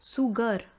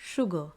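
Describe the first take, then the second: First: The word begins with a plain s sound. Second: The word begins with an sh sound. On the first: The speaker calls it wrong. "if you really see by every letter, it should be said as sugar" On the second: The speaker calls it right. "you say sugar"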